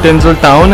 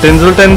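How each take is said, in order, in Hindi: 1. आखिरी अक्षर पूरा 'town' है। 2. आखिरी अक्षर छोटा 'ton' है। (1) "ये एक्चुअली टिंजल टाउन है" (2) "मैं इसको टिंजल्टन बोल रहा था"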